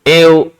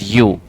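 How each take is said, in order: First: The word sounds like 'ev'. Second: The word sounds like 'you'. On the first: The speaker calls it wrong. "कोई इसको एव, ईव, वी, बहुत सारे word pronounce करेंगे" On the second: The speaker calls it right. "लेकिन इसकी pronunciation जो होती है ना, दैट इज यू"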